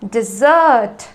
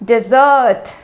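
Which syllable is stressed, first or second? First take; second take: second; second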